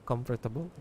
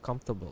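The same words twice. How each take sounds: First: The word is said with a Filipino accent. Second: The word is said with a standard English accent. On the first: "Siyempre, Filipino, you know" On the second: "the right pronunciation is"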